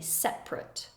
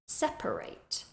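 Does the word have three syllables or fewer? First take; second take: fewer; three. First: The word has fewer, reduced syllables. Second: The word has three full syllables. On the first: It is used as an adjective. "if we're using it like an adjective, we would say separate" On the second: It is used as a verb. "You'll hear that there are three syllables"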